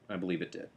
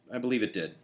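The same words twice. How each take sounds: First: Softer, almost to himself; quiet. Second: Said in the usual way. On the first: Real, not acted. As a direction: repeat it quietly, sincerely. Repeats the line, softer second time.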